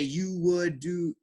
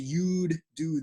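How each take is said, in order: First: The word would is said in full. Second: The word would is shortened to a d sound. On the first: "most times I don't say you would do" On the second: "I just say you'd do this"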